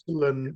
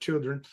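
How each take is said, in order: First: The word is said as a clipped 'chillin'. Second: The word is said in full as 'children'. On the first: This is how the old blues singer said it. "he used to say chillin' instead" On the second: This is the standard form of the word. "instead of children"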